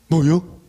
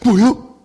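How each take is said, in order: First: The voice sounds bewildered. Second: The voice sounds surprised. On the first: "황당할 때" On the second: "놀랐을 때"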